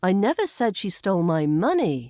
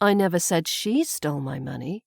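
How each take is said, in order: First: The stress falls on the word money. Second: The stress falls on the word she. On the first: She may have stolen something else. "on money" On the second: Someone else perhaps stole it. "I've put the emphasis now on the she"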